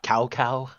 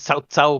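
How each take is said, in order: First: The name begins with a hard K sound. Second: The name begins with an S-like sound. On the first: The speaker calls it wrong. "but we got Cow Cow" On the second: The speaker calls it right. "the C is pronounced as an S sound, just like his name is Cao Cao"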